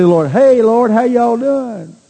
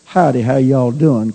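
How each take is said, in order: First: Drawn-out, higher mock greeting to God, slowed; overly chummy hello to the Lord, mocked; mock casual greeting. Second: Casual country hello, lightly voiced; tossed-off friendly greeting to a neighbor; folksy howdy greeting. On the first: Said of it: "when you say". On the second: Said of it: "kind of thing".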